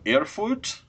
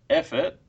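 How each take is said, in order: First: It is said with a German-style pronunciation. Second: It is said in a broad Australian accent. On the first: "My German's brilliant. That's how you pronounce it for sure" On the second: "Can you say it as if it's a place in Queensland?"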